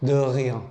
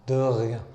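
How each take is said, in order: The two takes are said the same way.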